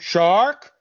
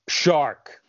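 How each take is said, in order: First: It is said as a rising question. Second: It is said as a falling statement.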